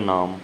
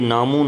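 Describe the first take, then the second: First: The word ends without a final vowel. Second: The word ends with an added 'u' vowel. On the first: The speaker calls it right. "ये silent रहेगी औंकड़" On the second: The speaker calls it wrong. "ये नामू नहीं होगा"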